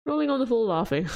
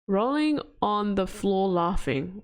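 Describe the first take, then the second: First: Rolling on the floor laughing rattled off fast; quick laughing read. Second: Rolling on the floor laughing drawn out slowly; slowly spelled out. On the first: Repeating the acronym to chat, fast and laughing. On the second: Decoding the acronym for chat, said slowly. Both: Shown as a demonstration.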